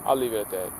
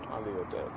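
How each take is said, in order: First: Said in the usual way. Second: Lower, much softer murmured take; murmured teasing aside. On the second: Shown as a demonstration. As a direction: drop it to a low mutter. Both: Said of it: "Should I say it like this?".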